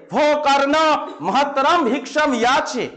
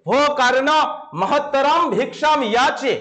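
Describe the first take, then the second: First: Slow, solemn call from behind the curtain; offstage voice. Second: Slow, solemn offstage call to Karna. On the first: Teacher again voices Indra calling Karna from offstage, slow and solemn. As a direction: summon Karna as an unseen voice. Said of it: "কর্ণকে ডেকে বলছেন". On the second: Teacher reads the offstage voice calling to Karna, slow and solemn. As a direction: call out as a hidden voice from behind the curtain. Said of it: "পর্দার আড়াল থেকে একটা আওয়াজ শোনা গেল।". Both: Shown as a demonstration.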